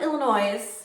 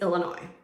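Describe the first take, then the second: First: The final S sound is pronounced. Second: The final S sound is left silent. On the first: The speaker calls it wrong. "So it's not Illinois" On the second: The speaker calls it right. "pronounced with a silent S on the end"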